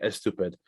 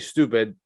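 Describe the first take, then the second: First: An extra vowel sound comes before the s. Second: The word starts directly with the s sound. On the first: "They have to always say es stupid" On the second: "they can't say stupid"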